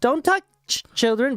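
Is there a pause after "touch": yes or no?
yes. There is a pause after "touch".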